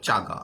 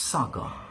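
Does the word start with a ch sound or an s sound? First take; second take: ch; s. First: The word starts with a ch sound. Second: The word starts with an s sound. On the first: The speaker calls it wrong. "উচ্চারণ যদি ভুল হয় কিন্তু শেষ, অনেকে বলবে চাগা" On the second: The speaker calls it right. "The সাগা, বলো সাগা"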